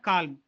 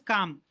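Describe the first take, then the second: First: The L sound is pronounced. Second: The L sound is silent. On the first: The speaker calls it wrong. "but not calm" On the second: The speaker calls it right. "you should not pronounce L"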